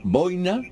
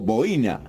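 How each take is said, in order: First: The stress falls on the first syllable. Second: The stress falls on the second syllable.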